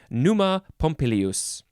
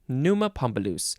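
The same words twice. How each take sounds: First: Pompilius is said with the second i sound. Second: Pompilius is said without the second i sound. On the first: The speaker calls it right. "There's another I in there" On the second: The speaker calls it wrong. "I said it wrong"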